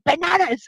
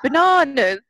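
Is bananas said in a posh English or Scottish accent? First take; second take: Scottish; posh English. First: It is said in a Scottish accent. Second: It is said in a posh English accent.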